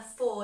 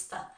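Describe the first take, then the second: First: Said in the usual way. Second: "for" as a weak, short "fuh"; reduced "for". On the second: Shown as a demonstration. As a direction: shrink "for" to an unstressed syllable. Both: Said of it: "the for just becomes for".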